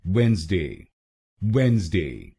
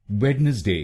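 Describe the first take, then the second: First: वेडनेसडे said as wenz-day, the middle D silent; वेडनेसडे in two syllables, wenz-day; correct pronunciation. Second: वेडनेसडे read with every letter, wed-nes-day; वेडनेसडे said as wed-nes-day, the D sounded; wrong spelling pronunciation वेडनेसडे, D voiced; wrong spelled-out reading. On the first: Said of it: "इसका सही pronunciation है". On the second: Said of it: "बोलेंगे तो गलत होगा". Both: Shown as a demonstration.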